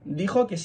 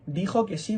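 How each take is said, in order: First: The word si is said weakly, without stress. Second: The word si is said with strong stress. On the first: It reports whether the listener would come. "en este caso es una conjunción" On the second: It affirms that the listener would indeed come. "¿Notáis que ese sí suena con más fuerza?"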